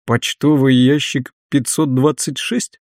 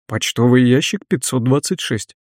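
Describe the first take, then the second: First: Slow, doubting question rising at the end. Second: Said in the usual way. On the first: Acted. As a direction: ask it slowly in disbelief. (медленный недоверчивый вопрос) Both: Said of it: "спросил он".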